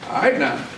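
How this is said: It is said in a flirtatious tone.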